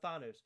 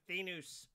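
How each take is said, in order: First: The first syllable sounds like 'thawn'. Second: The first syllable does not sound like 'thawn'. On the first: It sounds stronger. The speaker calls it right. "I'm going to say Thanos ... It's spelled T H A W N dash O S" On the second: This is how it is said in the movie. The speaker calls it wrong. "the way that the um the uh, uh Red Skull says it in um Infinity War, he goes Thanos"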